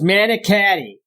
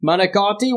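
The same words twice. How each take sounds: First: Manicotti with flat nasal Buffalo a's; mock the Buffalo vowels in manicotti; imitating a Buffalo accent on manicotti. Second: Said in the usual way. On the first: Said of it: "It was worse than a Boston person speaking". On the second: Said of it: "them just pronouncing food".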